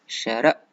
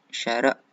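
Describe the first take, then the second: The two takes are said the same way.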